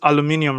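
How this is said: It is said the non-American way, aluminium. "Everybody says aluminium"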